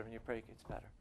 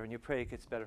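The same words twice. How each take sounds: First: Much softer repeat, letting it sink in; a hushed, reflective echo. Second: Said in the usual way. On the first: Acted. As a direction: drop the voice right down on the repeat.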